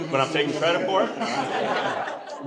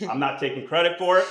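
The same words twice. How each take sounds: First: Slow, laughing, sly; tongue-in-cheek. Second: Said in the usual way. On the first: Pretend. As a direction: drag it out with a sly grin. Joke, denies then claims credit.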